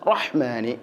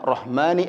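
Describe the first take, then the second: First: The h comes from deep in the throat. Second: The h is a light breathy sound. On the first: The speaker calls it right. "ഹ ഇൻ്റെ മഖ്റജ് തൊണ്ടയുടെ മധ്യഭാഗമാണ്" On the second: The speaker calls it wrong. "ഹ മാറിക്കൊണ്ട് ഹ വരാറുണ്ട്"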